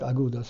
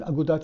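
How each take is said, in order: First: The word ends with an s sound. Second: The word ends with a t sound.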